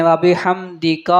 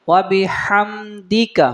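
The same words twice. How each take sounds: First: "وَبِحَمْدِكَ" with the final ka dragged to kaa; wrong long ending. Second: "وَبِحَمْدِكَ" slow, held hum, short final ka; correct reading. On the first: Teacher shows a common mistake, "وَبِحَمْدِكَ" with lengthened ending. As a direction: stretch the last vowel of "وَبِحَمْدِكَ". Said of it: "لمبا کر دیتے ہیں". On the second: Teacher corrects students' reading, slow "وَبِحَمْدِكَ" with short ending. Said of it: "اس کو نہیں پڑھنا، بلکہ". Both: Shown as a demonstration.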